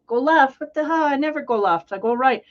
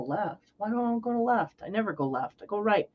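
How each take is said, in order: First: Higher, louder, incredulous what the hell; indignant retort. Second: Softer, muttering to himself, puzzled; quiet stubborn mutter. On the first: Driver snapping back at the guy in the window, loud. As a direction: fire it back, offended. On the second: Earth sign shrugging off his instinct, muttering softly. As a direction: grumble it under your breath, unconvinced. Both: Retold or imitated.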